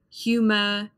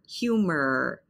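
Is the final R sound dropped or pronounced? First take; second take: dropped; pronounced. First: The final R sound is dropped. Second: The final R sound is clearly pronounced. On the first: This is the standard British form. "the R at the end of the word, you don't hear it" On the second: This is the standard American form. "to pronounce the R at the end of words"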